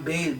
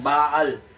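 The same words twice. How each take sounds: First: The word sounds like 'bail'. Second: The word does not sound like 'bail'. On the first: The speaker calls it wrong. "Sa Amerikano, parang Baal, B A I L. Parang Pale" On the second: The speaker calls it right. "mas tama ang pronunciation ng Pinoy dahil may pagka-Hebrew rin tayo"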